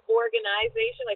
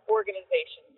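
First: It is said with a Canadian pronunciation. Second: It is said with an American pronunciation. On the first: "we would say in Canada" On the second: "it's obviously organization"

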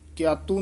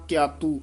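Both takes have the same delivery.

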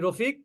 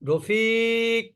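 First: The vowels are said short, not drawn out. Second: A vowel is drawn out long. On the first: It is an ordinary call. "সাধারণভাবে কি বলি?" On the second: The caller feels emotion or wants something. "লম্বা করি"

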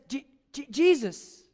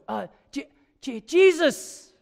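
First: It is said quietly and timidly. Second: It is said louder, with more force.

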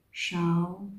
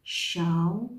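Both takes have the same delivery.

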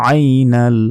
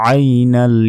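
No difference in how they are said.

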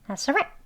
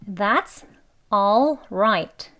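First: The word 'all' is almost silent. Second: The word 'all' is pronounced fully. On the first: "더 빨리 발음하게 되면" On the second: "이렇게 원래는 all right 단어의 발음"

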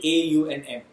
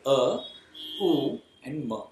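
First: They are said as English letter names. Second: They are said as sounds, ending in ma. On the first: The speaker calls it wrong. "not say A, U, and M" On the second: The speaker calls it right. "we will use the pronunciation of it"

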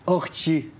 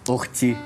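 First: The t sound is followed by a sh hiss. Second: The t sound is clean with no hiss. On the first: The speaker calls it wrong. "تبطلي تحشي حرف الشين اللي في كلامك ده. يعني ما تقوليش" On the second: The speaker calls it right. "تقولي"

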